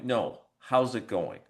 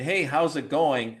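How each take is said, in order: First: It sounds like a genuinely interested, caring question. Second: It sounds like a casual passing greeting.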